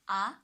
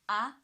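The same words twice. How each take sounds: The two takes are said the same way.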